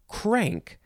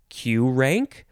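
First: It is said as the single word 'crank'. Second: It begins with the letter name 'cue'. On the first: The speaker calls it right. "I'm pretty sure it's crank" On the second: The speaker calls it wrong. "Is it Q-rank"

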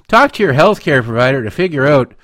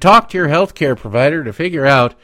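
First: It is read in a put-on Canadian accent. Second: It is read in the speaker's usual accent.

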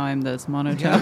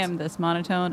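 First: It is said in a put-on, lower-pitched voice. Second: It is said in a natural, higher-pitched voice. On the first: This is the character's voice. "now I'm this monotone" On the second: This is the speaker's own voice.

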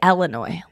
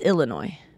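First: The first syllable sounds like 'ell'. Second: The first syllable sounds like 'ill'. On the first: The speaker calls it wrong. "You say Illinois, like Ellis" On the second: The speaker calls it right. "but it's Illinois"

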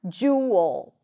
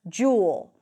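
First: The word is split into two syllables. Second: The word is said as one syllable. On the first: "Some people might even break it down into two parts"

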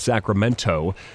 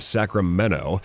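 First: The t sound is clearly pronounced. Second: The t sound is dropped. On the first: The speaker calls it right. "there's a T in Sacramento" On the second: The speaker calls it wrong. "It's not Sacramento"

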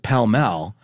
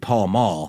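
First: Both words have the vowel of 'bell'. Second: Both words have the vowel of 'ball'. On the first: This is the traditional way older smokers say it. "grandpas pronounce it pell-mell" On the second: This is how the written name looks. "if you look at the pack, it's clearly Paul Mall"

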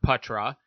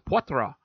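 First: The name is said short, with clipped vowels. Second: The name is said with French pronunciation. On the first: "I heard Patra" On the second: "I know the last name as Poitras, very French"

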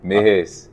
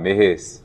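First: It is said in a reduced Liberian English accent. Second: It is said in a reduced Liberian English accent.

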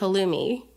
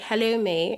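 First: It is said in an American accent. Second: It is said in a British accent.

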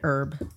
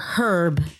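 First: The word starts with a silent h. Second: The word starts with a pronounced h.

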